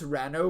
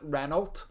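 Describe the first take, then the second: First: It is said in a British way. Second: It is said in an American way. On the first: "is pronounced Reno" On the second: "you Americans would probably pronounce it Renault"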